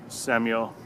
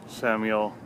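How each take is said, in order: No difference in how they are said.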